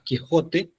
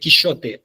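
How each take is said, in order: First: The middle consonant is a harsh 'h' sound. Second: The middle consonant is a 'sh' sound. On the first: This is the modern pronunciation. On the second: This is the medieval pronunciation.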